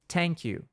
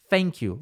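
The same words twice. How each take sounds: First: "thank you" com T seco, "tenk you"; pronúncia errada com T. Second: "thank you" com F no começo, "fenk you"; pronúncia errada com F. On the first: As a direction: mostra o erro de dizer "thank you" com T. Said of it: "Isso aqui não é". ("thank you" errado, como "tank") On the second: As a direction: mostra o erro de dizer "thank you" com F. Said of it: "Não é nem". ("thank you" errado, com som de F) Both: Shown as a demonstration.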